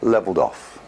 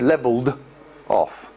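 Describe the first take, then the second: First: The final d runs straight into the next word. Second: The final d stops before the next word. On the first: The speaker calls it right. "we connect the consonant sound to the following vowel sound" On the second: The speaker calls it wrong. "it stops my speech"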